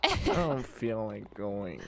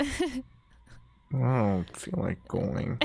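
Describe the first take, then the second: First: Pouty voice. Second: Sulky, slow whine; pouty voice. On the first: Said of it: "you have a really good pouty voice". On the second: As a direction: drag it out like a sulking kid. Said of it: "You're like a professional pouter". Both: Pretend.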